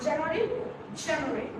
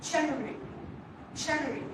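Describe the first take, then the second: No difference in how they are said.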